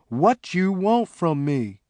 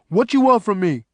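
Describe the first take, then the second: First: The words are said at normal pace. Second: The words are run together quickly.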